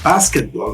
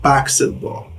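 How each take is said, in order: First: The s sound comes before the k sound. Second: The k sound comes before the s sound. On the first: "they say basketball" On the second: "not basketball"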